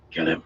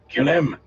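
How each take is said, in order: First: Said in the usual way. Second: Urgent shout. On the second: Acted. Repeated louder, over and over.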